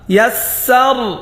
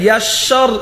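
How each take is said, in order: First: The s sound is said light and thin. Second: The s sound is said heavy and thick. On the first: The speaker calls it right. "সিন পাতলা" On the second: The speaker calls it wrong. "এখানে ইয়াসসর এমন না"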